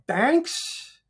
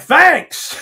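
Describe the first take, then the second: First: High, rising, questioning thanks; unsure thanks. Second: Loud, high, hammed-up thanks; hearty shouted thanks. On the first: Retold or imitated. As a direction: retell a puzzled thank-you, lifting into a question. Retold puzzled reply to rude compliment. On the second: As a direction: call back a big thank-you, retelling it. Retold hearty reply to yelled insult.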